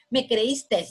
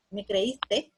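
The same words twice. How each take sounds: First: "creíste" dicho "creístes"; S final añadida. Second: Said in the usual way. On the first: Shown as a demonstration. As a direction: alarga una S sobrante al final de "creíste". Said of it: "porque tiene S al final". ("creíste" con una ese final sibilante) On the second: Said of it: "tenemos que eliminarle la".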